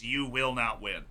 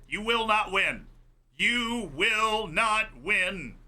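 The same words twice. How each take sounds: First: Said in the usual way. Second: Drawn-out mock yell, higher and louder. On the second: Defender taunting Messi, drawn-out mock yell. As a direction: yell it slowly like a taunt at the player. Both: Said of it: "That's what he was yelling".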